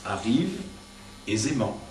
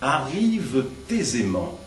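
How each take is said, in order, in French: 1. Pas de son de liaison 't' avant 'aisément'. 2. Un son de liaison 't' vient avant 'aisément'. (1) "sans faire la liaison entre les deux derniers mots du vers" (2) "dis-le cette fois en faisant la liaison"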